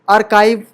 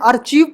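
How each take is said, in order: First: The middle consonant is a k sound. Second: The middle consonant is a ch sound. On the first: The speaker calls it right. "लेकिन आर्काइव है" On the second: The speaker calls it wrong. "इसे पहले आर्चीव पढ़ा करते थे"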